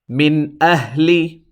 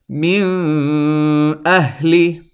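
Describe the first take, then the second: First: The n is clear and short, not nasalized. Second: The n is lengthened and held in the nose. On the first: The speaker calls it right. "Notice the noon sound I pronounced clearly and did not extend it" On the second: The speaker calls it wrong. "I'm going to extend this noon sound, which is incorrect"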